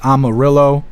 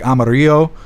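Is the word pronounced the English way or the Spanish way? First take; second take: English; Spanish. First: The name is said with an English pronunciation. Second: The name is said with a Spanish pronunciation. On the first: "It's Amarillo" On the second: "in Spanish, Amarillo is, is spoke like Amarillo"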